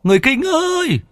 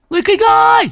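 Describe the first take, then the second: First: Very high, long carrying call. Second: Very high, loudest long call; full shout. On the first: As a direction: cup hands and call across the forest. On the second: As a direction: bellow it into the woods. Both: Acted. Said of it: "trụm tay lên miệng mà hét".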